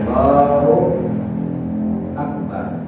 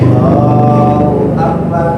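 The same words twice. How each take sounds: First: There is a long pause between the words. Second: The words are said in one breath.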